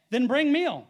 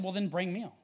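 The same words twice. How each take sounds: First: Higher, louder scripture command; loud declaration. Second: Understated, even retelling of a calm reply. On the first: A narrator's reading. Preacher reading Elisha's answer to the congregation, loudly declaring. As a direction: proclaim the prophet's order out loud. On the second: Retold or imitated. Preacher retelling how Elisha answered without reacting hastily, calmly. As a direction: say it evenly, without any reaction. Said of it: "He actually just very calmly said".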